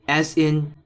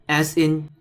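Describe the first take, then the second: The two takes are said the same way.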